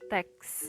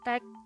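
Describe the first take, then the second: First: The word ends in a ks sound. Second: The word ends in a bare k sound. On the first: The speaker calls it right. "seharusnya dibaca teks" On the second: The speaker calls it wrong. "tidak diucapkan fonem konsonan S itu"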